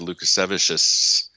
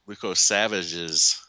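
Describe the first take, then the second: First: The name is said in the speaker's usual way. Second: The name is said as Luko Savages. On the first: The speaker calls it wrong. "I always say that wrong" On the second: The speaker calls it right. "That's it"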